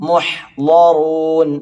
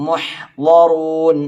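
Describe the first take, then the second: The two takes are said the same way.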